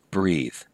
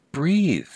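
First: Said in the usual way. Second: "Breathe." jumps much higher and a bit louder, then falls; emphatic high repeat. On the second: Shown as a demonstration. Coach urging athletes to breathe, emphatic and high. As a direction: call it out like a firm reminder.

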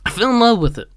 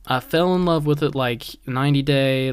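First: Gushing. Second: Said in the usual way. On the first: Real, not acted. Gushing about the show.

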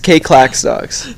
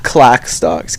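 First: Slow, mock robotic readout. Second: Said in the usual way. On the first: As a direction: drag it out like an automated system. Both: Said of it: "most robotic fucking shit I've ever heard".

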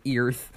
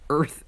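First: "Earth" with an "ear" vowel, like "eerth"; mimicking a player's odd "eerth" for "Earth"; imitated mispronunciation. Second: "Earth" with an "ur" vowel, like "urth"; correcting "Earth" to a plain "urth"; corrected pronunciation. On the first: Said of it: "to hear Chad say Earth". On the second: Acted. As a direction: say "Earth" to rhyme with "birth". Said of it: "walks up and corrects him".

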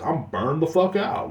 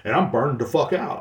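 First: I'm burned the fuck out dragged out slowly, fuck rising; tired, emphatic repeat with a rise on fuck; slow, weary stress on fuck. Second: Said in the usual way. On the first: Real, not acted. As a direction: lean hard on fuck and slow the whole line down.

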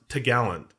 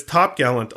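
First: T'gallant run together as "tuh-GAL-unt"; nautical pronunciation. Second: Said in the usual way. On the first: Shown as a demonstration. Host showing listeners the sailors' term, t'gallant said "tuh-gallant". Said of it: "is actually pronounced t'gallant". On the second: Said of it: "how it's spelled".

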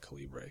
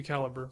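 First: Soft, quick "Calibre" with the stress on LEE; exotic-sounding "Calibre" ending in -bray; exotic pronunciation. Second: "Calibre" stressed on the first syllable; plain-English "Calibre" ending in -ber; alternative pronunciation. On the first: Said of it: "I like to call it". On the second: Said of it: "it might be Calibre for all I know". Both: Shown as a demonstration.

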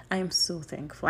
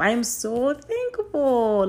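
First: Said in the usual way. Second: Higher, louder, slow and drawn out; fervent thanks. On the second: Real, not acted. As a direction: pour it out to God. Emphatic thanks to God.

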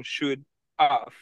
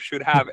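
First: "should have" said as "should of", with the "have" reduced. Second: "should have" with a clear full "have" and a v sound. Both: Shown as a demonstration. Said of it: "instead of".

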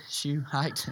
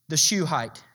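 First: Shuhite said softly as a pun on shoe height; punchline repeat. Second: Said in the usual way. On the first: Shown as a demonstration. Preacher landing his pun on the congregation. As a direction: Shuhite muttered as a sly joke. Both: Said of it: "Get it?".

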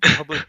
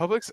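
First: "public" said as plain public, missing the x; slip of the tongue. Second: "Publix" said with a clear final ks; corrected store name. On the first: The clerk naming his store, saying "public". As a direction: mistakenly say "public" for the store name. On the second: The clerk fixing the store name, stressing "Publix". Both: Shown as a demonstration.

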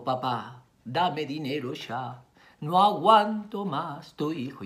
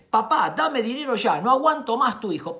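First: Slow, gentle, pleading delivery; tender plea. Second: Loud, high, urgent demand; demanding son's mail. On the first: Mother rereads the son's mail to the father, slow tender plea. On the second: Indignant father reads his son's mail to his wife, harsh demand. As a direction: read it out harshly, raised and insistent. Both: Acted. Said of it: "¿Por qué no me lo pidió así?".

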